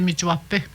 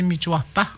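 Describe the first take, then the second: First: The word ends without an 'a' sound. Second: The word ends with a pronounced 'a' sound. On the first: Other speakers use this form. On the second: Some speakers use this form.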